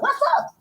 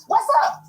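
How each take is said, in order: First: "What's up?" thrown out much higher, voiced; high mock challenge. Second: "What's up?" breathed without voice; whispered taunt. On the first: Challenging the woman at the event, high and taunting. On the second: Retold or imitated. Challenging the woman at the event, in a whisper.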